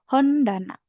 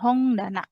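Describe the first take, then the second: First: The consonant before the D sounds like n. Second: The consonant before the D sounds like ng. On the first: The speaker calls it right. "jadi dibacanya biasa Hondana" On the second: The speaker calls it wrong. "bukan Hongdana"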